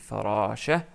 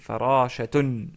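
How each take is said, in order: First: The word ends on a plain 'a' vowel. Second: The word ends with a final 'tun' sound. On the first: This is the form used when stopping on the word. "comme on s'arrête sur le mot, on dit farasha" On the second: This is the full form of the word. "parce que c'est farashatun"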